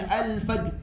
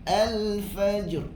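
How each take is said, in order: First: The final r is cut off and held back. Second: The final r carries a slight audible sound. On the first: The speaker calls it wrong. "Jangan ... jangan tertahan" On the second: The speaker calls it right. "Dia ada bunyi ra tu"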